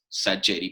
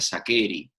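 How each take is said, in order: First: The surname is said with Spanish-style pronunciation. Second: The surname is said with Italian pronunciation. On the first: This is how everyone in the country says it. "todo se pronuncia castellanizado, entonces es Sacheri" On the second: This is the original family pronunciation. "mi apellido se pronuncia Saccheri. Siendo un apellido italiano"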